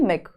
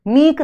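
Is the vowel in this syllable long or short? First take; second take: short; long. First: The vowel is short. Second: The vowel is long. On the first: The speaker calls it right. "छोटे ई की मात्रा आती है" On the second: The speaker calls it wrong. "मीक नहीं है"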